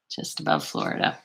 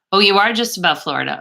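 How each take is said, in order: First: Breathy whisper under the breath, "above" slightly leaned on; whispered to herself. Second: Said in the usual way. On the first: Real, not acted. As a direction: echo "Just above Florida" as a soft private whisper. Repeats comment to herself.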